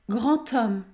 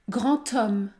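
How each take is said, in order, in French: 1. Les mots sont liés par un son 't'. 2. Les mots sont liés par un son 't'.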